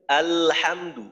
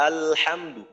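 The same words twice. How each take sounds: The two takes are said the same way.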